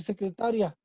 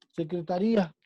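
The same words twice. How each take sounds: First: Secretaria stressed on ta, ria run together as one syllable. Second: Secretaría stressed on the í, ría split as rí-a. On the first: Teacher shows the word without accent mark, secretaria stressed on ta. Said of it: "si no le ponemos el acento". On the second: Teacher shows students the accented word, secretaría stressed on í. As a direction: say secretaría with the beat on the í. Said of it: "que sabemos que lleva un acento". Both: Shown as a demonstration.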